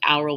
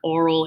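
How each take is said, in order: First: The first vowel sounds like 'ow'. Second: The first vowel sounds like 'or'. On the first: "I want to pronounce it aural" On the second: "I think they pronounce it like oral"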